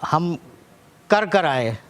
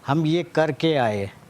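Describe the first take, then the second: First: The verb is said as two separate 'kar' syllables. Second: The verb is said as one word, 'karke'. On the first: The speaker calls it wrong. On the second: The speaker calls it right.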